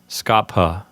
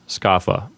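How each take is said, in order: First: The ph is said as an aspirated p. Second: The ph is said as an f. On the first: This is the classical way to say it. "this word is supposed to sound like skapha" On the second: This is the church Latin way to say it. "in ecclesiastical pronunciation, the correct pronunciation of this word is scapha"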